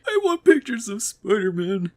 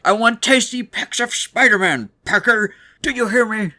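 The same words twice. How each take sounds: First: High, half-hearted demand; a timid first attempt at anger; weak try at yelling. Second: High, loud yell while sobbing; crying angry yell. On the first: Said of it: "one of the demons goes up to Jonah". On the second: Retold or imitated. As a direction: scream the demand through tears. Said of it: "like, yelling, trying to be angry, while also crying his eyes out".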